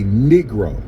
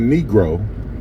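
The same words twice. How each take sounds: First: The word is bent toward the sound of the slur. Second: The word has its usual standard pronunciation. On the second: "instead of saying Negro"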